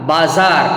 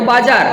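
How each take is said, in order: First: The middle consonant is a z sound. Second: The middle consonant is a j sound. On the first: "बोला जाता है नुक्ता है तो बाजार" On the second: "बाजार है तो बाजार"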